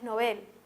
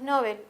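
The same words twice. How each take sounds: First: The stress is on the second syllable. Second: The stress is on the first syllable. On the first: The speaker calls it right. "y es Nobel" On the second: The speaker calls it wrong. "pronunciamos muchas veces Nobel"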